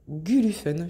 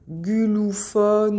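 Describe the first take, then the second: First: The last syllable has an 'en' vowel. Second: The last syllable has a nasal 'on' vowel. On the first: "moi j'aime bien dire Gulufen, je trouve ça joli" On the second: "si on dit euh, euh, Gulufon ou je sais pas trop comment"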